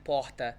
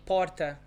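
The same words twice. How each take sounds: First: PORTA with R as a breathy H; throat H R. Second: PORTA with the R sounded by the tongue; São Paulo style R in "porta"; vibrating R. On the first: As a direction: say "porta" as "POH-ta". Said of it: "I would understand porta". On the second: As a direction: say "porta" with a tapped R. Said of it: "if you tell me porta". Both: Shown as a demonstration.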